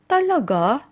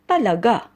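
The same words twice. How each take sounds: First: It sounds like a doubtful, unsure question. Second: It sounds like a firm, definite statement. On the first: The speaker doubts what was said. "when we are in doubt, we usually say it this way" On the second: The speaker affirms that it is true. "if you want to use it as a definite or positive answer"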